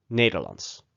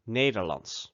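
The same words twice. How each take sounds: First: "Nederlands" said NAY-der-lants, final ts; Dutch Nederlands. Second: "Nederlands" said NAY-der-lants with Dutch vowels. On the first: Teacher repeats Nederlands so learners copy. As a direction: say "Nederlands" again, crisply. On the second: Teacher models Nederlands for the learner. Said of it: "the Dutch word for Dutch is". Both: Shown as a demonstration.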